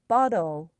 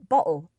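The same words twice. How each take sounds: First: The middle T is a quick D-like flap. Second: The middle T is a glottal stop. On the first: "I hear American English speakers say things like bottle" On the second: "in British English... that employs the glottal stop"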